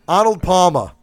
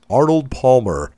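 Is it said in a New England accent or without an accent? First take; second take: New England; without accent. First: It is said in a New England accent. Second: It is said without a regional accent.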